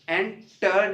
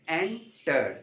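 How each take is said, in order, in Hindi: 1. Stress दूसरे syllable पर है। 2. स्ट्रेस पहले सिलेबल पर है। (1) "इसमें आप एंटर नहीं बोलेंगे" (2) "जिसमें स्ट्रेस फर्स्ट सिलेबल पर हो"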